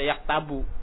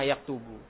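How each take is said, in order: First: The vowel after the t is a. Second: The vowel after the t is u. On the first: The speaker calls it wrong. "nggak boleh dibaca yaktabu" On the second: The speaker calls it right. "Harus taknya doma"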